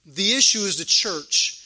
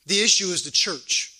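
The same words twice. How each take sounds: The two takes are said the same way.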